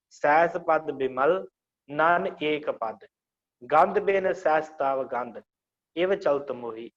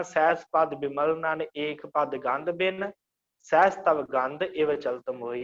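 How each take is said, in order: First: Slow, with a clear break after ਸਹਿਸ ਪਦ ਬਿਮਲ; pauses for meaning. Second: ਸਹਿਸ ਪਦ ਬਿਮਲ ਨਨ ਏਕ ਪਦ run together without the meaning break; usual recitation. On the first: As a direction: pause where the meaning splits, ਸਹਿਸ ਪਦ ਬਿਮਲ then stop. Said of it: "ਇਸ ਤਰ੍ਹਾਂ ਆਪਾਂ ਵਿਸ਼ਰਾਮ ਦੇਣਾ". (ਅਰਥ ਅਨੁਸਾਰ ਵਿਸ਼ਰਾਮ ਨਾਲ ਹੌਲੀ ਪਾਠ) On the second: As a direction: read it straight through as usually recited. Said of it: "ਅਸਲ 'ਚ ਆਪਾਂ ਪੜ੍ਹਦੇ ਹਾਂ". (ਆਮ ਪਾਠ ਵਾਂਗ ਬਿਨਾਂ ਵਿਸ਼ਰਾਮ) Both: Shown as a demonstration.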